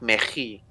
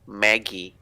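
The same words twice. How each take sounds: First: The name is said with a Dutch-style pronunciation. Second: The name is said with its own native pronunciation. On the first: The speaker calls it wrong. "not in the Dutch sense kind of way" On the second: The speaker calls it right. "pronounce name the way they are"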